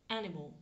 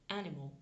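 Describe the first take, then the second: No difference in how they are said.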